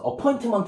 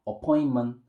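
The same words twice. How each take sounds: First: The middle T is clearly pronounced. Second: The middle T is dropped, American style.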